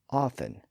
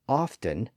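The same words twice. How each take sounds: First: The T sound is silent in the middle. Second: The T sound is pronounced in the middle. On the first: "Queen Elizabeth usually dropped the T" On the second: "John Hart included the T"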